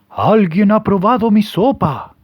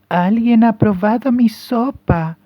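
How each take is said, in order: First: It is said in a hoarse papa bear voice. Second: It is said in a soft mama bear voice.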